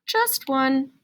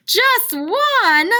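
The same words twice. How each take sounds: First: Said in the usual way. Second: High, loud surprised question; mock surprise. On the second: Shown as a demonstration. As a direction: act shocked that there is only one.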